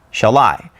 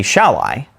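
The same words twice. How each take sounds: First: "Shall I" said shall-I, weight on I; stress on second word. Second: "Shall I" wrongly hit as SHALL-i; stress on first word. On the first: Teacher showing the proper iamb, I stressed. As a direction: keep "Shall" light and land on "I". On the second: Teacher showing what we wouldn't say, SHALL stressed. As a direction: punch "Shall", let "I" drop away. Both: Shown as a demonstration. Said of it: "We wouldn't say".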